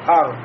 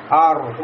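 First: The r is muted, with little rolling. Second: The r is strong and rolled, Russian-style. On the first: The speaker calls it right. "У меня губы не сомкнулись и не шевелились" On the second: The speaker calls it wrong. "у меня получится уже как в русском языке"

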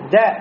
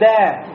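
First: The vowel is short and clipped. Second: The vowel is drawn out long. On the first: The speaker calls it right. "ну не тянем" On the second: The speaker calls it wrong. "не говорим да. Если скажем да, то после фатхи у нас еще появляется алиф"

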